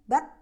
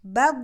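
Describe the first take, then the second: First: The final sound is cut off abruptly. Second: The final sound is drawn out and flowing. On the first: The speaker calls it wrong. "bukan bat" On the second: The speaker calls it right. "tapi alirkan suara"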